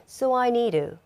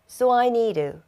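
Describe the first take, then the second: No difference in how they are said.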